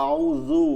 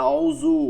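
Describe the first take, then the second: No difference in how they are said.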